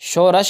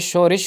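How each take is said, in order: First: The last vowel is a. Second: The last vowel is i. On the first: The speaker calls it wrong. "नहीं होता" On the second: The speaker calls it right. "होता है"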